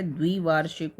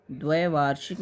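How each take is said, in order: First: द्विवार्षिक starting with "dvi"; correct first vowel. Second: द्वैवार्षिक starting with "dvai"; wrong first vowel. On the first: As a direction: say a short i in द्विवार्षिक. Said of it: "होता है". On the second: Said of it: "नहीं होता है". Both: Shown as a demonstration.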